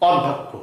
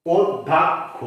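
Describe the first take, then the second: First: অধ্যক্ষ read as it is spelled, অধ্যক্ষ with a plain অ; common wrong way. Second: অধ্যক্ষ said ওদ্ধোক্খো, the first vowel as o; correct pronunciation. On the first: Teacher imitates how everyone says it, wrong. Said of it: "আমরা বলি". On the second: Teacher gives students the right form, clearly. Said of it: "উচ্চারণ যারা হওয়া উচিত". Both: Shown as a demonstration.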